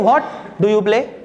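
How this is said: The stress falls on the word what. "Stress कहां पे, what पे"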